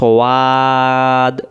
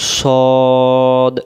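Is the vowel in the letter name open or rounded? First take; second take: open; rounded. First: The vowel is said with the mouth open. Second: The vowel is said with rounded lips. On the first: The speaker calls it wrong. "মুখটা ফাঁকা হয়ে যাচ্ছে, তখন এর উচ্চারণটা ভুল হয়ে যাচ্ছে" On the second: The speaker calls it right. "মুখটা গোল হবে সদ"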